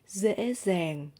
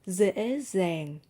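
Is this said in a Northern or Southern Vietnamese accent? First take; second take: Northern; Northern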